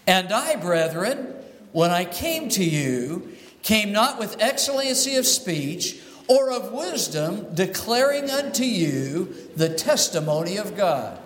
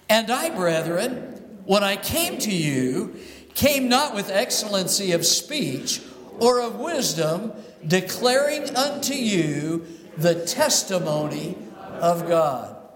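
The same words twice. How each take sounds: First: The last three words get no extra emphasis. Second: The last three words get extra emphasis.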